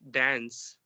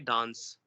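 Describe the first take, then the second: First: It is said with an American accent. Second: It is said with a British accent. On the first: "When it comes to Americans, they always say dance" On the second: "Britishers would always say dance"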